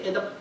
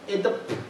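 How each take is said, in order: First: The final stop is held without release. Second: The final stop is audibly released. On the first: The speaker calls it right. "with the final closing unreleased" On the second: The speaker calls it wrong. "somebody would not ordinarily say"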